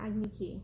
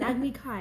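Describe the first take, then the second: First: The second word sounds like 'key'. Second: The second word rhymes with 'sky'. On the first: The speaker calls it wrong. "not Agni Ki" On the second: The speaker calls it right. "it's an Agni Kai"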